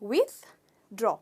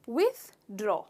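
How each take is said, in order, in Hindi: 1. इसे साफ़ 'th' ध्वनि के साथ बोला जाता है। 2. इसे साफ़ 'th' ध्वनि के साथ बोला जाता है।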